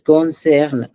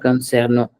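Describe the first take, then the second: First: The ending after concern is left silent. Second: The ending after concern is sounded aloud. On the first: The speaker calls it right. "We don't pronounce the ent at the end" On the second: The speaker calls it wrong. "it's not concerno"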